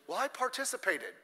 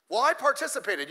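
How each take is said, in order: First: A lightly mocking loser's excuse, softer. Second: A mildly smug take on "participated"; mock proud excuse. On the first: Pastor mimics a sore loser's excuse, softly mocking. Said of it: "It stinks". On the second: Pastor mocks a proud participant, mildly smug. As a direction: say it like it counts as a win. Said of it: "You know what participation means?".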